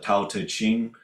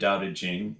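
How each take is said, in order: First: The title is said with anglicized, spelling-based pronunciation. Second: The title is said with Chinese-style pronunciation. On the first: The speaker calls it wrong. "but the Tao Te Ching" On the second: The speaker calls it right. "not the Tao Te Ching, which is even the pronunciation of the T, T, and C romanization"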